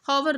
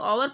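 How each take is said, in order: First: The word starts with an audible h sound. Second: The word starts with a vowel, no h sound. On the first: The speaker calls it wrong. "हॉवर नहीं बोलते हैं" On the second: The speaker calls it right. "इसे ओवर पढ़ते हैं, इसमें एच silent रहता है"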